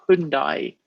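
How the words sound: The name is pronounced the American way. "over here you say it Hyundai"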